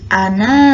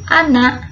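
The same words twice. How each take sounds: First: The final vowel is long. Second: The final vowel is short. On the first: The reader stops at this word. "adapun ketika wakof" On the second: The reading continues on without stopping. "Ketika wasol dibacanya"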